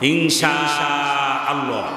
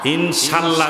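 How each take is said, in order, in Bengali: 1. 'sha' স্বরটি দীর্ঘ টানা হয়। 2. 'sha' স্বরটি ছোট রাখা হয়। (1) "ইনশা শাটা চার আলিফ টানতে হবে" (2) "যারা বলেন তাদের উচ্চারণ ভুল"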